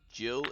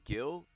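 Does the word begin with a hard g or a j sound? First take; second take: j sound; hard g. First: The word begins with a soft j sound. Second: The word begins with a hard g sound. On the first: It is the liquid measurement. The speaker calls it right. "the only reason it's Jill instead of Gil" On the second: It is the part of a fish. The speaker calls it wrong. "that don't sound right"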